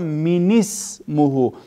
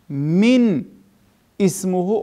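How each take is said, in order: First: The words are joined by an added i sound. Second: The words are said separately without a linking vowel.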